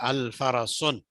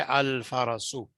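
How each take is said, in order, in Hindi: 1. शब्द के अंत में एक अतिरिक्त n ध्वनि जुड़ती है। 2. शब्द स्वर पर खत्म होता है, n के बिना। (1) "अल फरसुन गलत है।" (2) "इसको हम पढ़ेंगे अल फरसु।"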